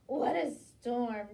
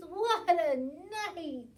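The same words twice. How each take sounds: First: Loud, slowish cry of "What a storm"; twittering wren. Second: Loud, slow cry of "What a night"; mole exclaiming. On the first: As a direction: chirp it out like a wren. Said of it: "twitters wren". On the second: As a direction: wail "What a night!" loudly. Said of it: "Mole mutters". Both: Acted.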